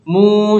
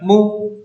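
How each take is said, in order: First: The vowel is held long. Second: The vowel is cut short. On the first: The speaker calls it right. "jadi panjang" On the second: The speaker calls it wrong. "bukan mu seperti itu"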